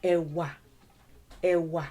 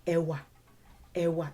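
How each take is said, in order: First: E wa with both syllables dropped low; measured E wa, low on each syllable; low tones, syllable by syllable. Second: E wa run together, both tones low; quicker low-low e wa; faster, still low. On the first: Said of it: "let your tone get that low, syllable by syllable". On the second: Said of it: "even if you say it faster". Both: Shown as a demonstration.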